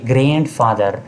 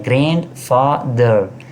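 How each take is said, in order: First: Said in the usual way. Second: grandfather slowly split as grand-fa-ther; syllable by syllable. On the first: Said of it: "जिस तरह आप यहाँ देखिए". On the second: Shown as a demonstration. Teacher showing the word's three parts, broken into syllables. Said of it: "इसकी तीन हिस्से हैं".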